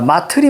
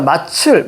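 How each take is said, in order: First: The middle consonant is a plain 't' sound. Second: The middle consonant is a 'ch' sound. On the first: The speaker calls it right. "마틀이 맞죠" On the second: The speaker calls it wrong. "말도 안 되는 거죠"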